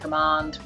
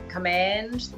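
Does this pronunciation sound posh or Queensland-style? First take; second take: posh; Queensland. First: It is said in a posher, non-local way. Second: It is said the usual Queensland way. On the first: It would make the speaker seem pretentious. The speaker calls it wrong. "It's not ... because we don't want to sound like a wanker" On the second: This is how locals normally talk. The speaker calls it right. "Most Queenslanders tend uh, to say"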